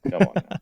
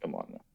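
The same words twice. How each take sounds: First: A high, squeaky come on now; squeaky high protest. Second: A very soft, low-volume come on now; barely audible mutter. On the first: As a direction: jump way up into a squeak. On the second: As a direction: drop to almost nothing. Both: Real, not acted. Playful protest after teasing.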